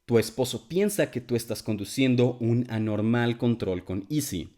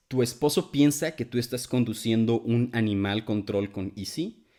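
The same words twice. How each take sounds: First: "anormal control" in clean native Spanish, falling at the end; clear Spanish pronunciation. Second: "Tu esposo piensa que tú estás conduciendo un animal control con Easy" said in clean native Spanish; clear Spanish pronunciation. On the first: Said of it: "Or maybe". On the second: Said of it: "two theories about what he could be saying". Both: Shown as a demonstration.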